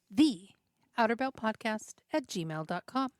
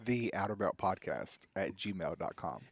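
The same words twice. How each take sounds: First: It is said in a normal voice. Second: It is said in a deeper, masculine voice.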